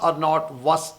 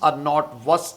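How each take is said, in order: Both takes have the same delivery.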